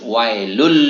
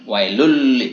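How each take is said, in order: First: The n sound merges into an l sound. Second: The n sound merges into an l sound.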